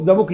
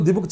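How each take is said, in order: First: The word 'the' is said as 'thuh'. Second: The word 'the' is said as 'thee'. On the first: The speaker calls it right. "ద book easy" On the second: The speaker calls it wrong. "ది book చాలా కష్టం"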